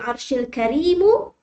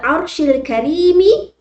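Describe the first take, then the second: First: The last word ends with a u vowel. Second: The last word ends with an i vowel. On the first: The honour describes the Lord of the throne. "boleh dibaca Rabbul Arshil Karimu kalau dia dikaitkan dengan Rabb" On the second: The honour describes the throne itself. "bila Arshil Karimi, dia terkait dengan Arash"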